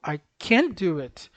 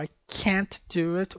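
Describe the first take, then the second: First: Slow, CAN stressed and held on the n; emphasis on CAN. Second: Slow, CAN'T stressed and stopped on the t; emphasis on CAN'T. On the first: Teacher drilling the difference, stress on CAN. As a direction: lean on CAN, running it into "do". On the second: Teacher drilling the difference, stress on CAN'T. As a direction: lean on CAN'T, then a tiny break before "do". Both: Shown as a demonstration. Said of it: "sempre dá ênfase nesse ponto".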